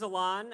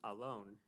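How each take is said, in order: First: The name does not sound like English 'alone'. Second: The name sounds like the English word 'alone'. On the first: The speaker calls it wrong. "I've been pronouncing my name wrong my whole life" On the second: The speaker calls it right. "it's actually pronounced Alon"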